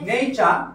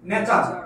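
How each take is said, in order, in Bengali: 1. প্রথম স্বরধ্বনিটি হলো 'day'-এর 'ay'। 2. প্রথম স্বরধ্বনিটি একটি ছোট, সাধারণ 'e'। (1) "বলেন নেচার" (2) "আগে কি বলতেন?"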